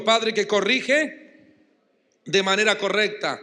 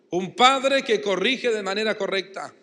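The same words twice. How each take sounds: First: "padre que corrige" drawn out very slowly, each word leaned on; slow emphatic call to repeat. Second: Said in the usual way. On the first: Shown as a demonstration. Preacher to congregation, slow emphatic call-and-repeat. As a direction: spell out "padre que corrige de manera correcta" slowly for the crowd to echo. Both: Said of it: "diga conmigo".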